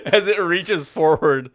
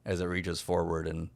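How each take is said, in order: First: Narration broken up by real laughter, louder; laughing. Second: Said in the usual way. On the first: Real, not acted. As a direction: laugh through the words. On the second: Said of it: "as it realizes how panicked you are".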